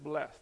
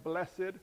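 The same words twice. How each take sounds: First: "blessed" said as one syllable, blest; "blessed" flowing as one syllable with no extra ending. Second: "blessed" said as bless-ed, with the extra syllable split off the end; the churchy two-syllable "blessed" rather than "blest". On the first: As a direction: keep "blessed" short as a single syllable, blest. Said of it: "you don't actually have to break the extra syllable". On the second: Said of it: "don't break the extra syllable off on the end". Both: Shown as a demonstration.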